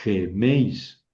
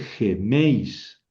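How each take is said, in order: First: The stress falls on the e of the diphthong. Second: The same.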